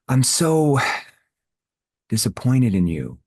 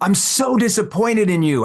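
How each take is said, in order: First: The tone is lower, soft and concerned. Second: The tone is harsh and accusing. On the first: The speaker cares about the listener. "lower my tone into a concerned tone, a tone that shows empathy" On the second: The listener is being blamed. "you're using that type of tone"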